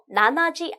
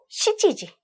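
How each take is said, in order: First: It begins with 'nana', as nanaji. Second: It begins with 'shichi', as shichiji. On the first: The speaker calls it wrong. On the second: The speaker calls it right.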